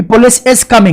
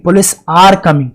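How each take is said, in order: First: Slow, with "is" picked out; stress on "is". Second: Slow, with "are" picked out; stress on "are". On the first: Teacher quoting students' wrong verb, stress on "is". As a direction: lean on "is" as the mistake. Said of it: "नहीं, police are coming". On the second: Teacher correcting students' verb, stress on "are". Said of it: "is coming आप पढ़ रहे हैं तो बिल्कुल गलत". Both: Shown as a demonstration.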